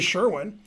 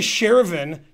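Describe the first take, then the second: First: The middle consonant is a W sound. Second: The middle consonant is a V sound. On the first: The speaker calls it right. "it's obviously Sherwin" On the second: The speaker calls it wrong. "You can't say Shervin"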